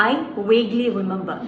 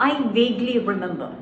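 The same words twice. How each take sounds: No difference in how they are said.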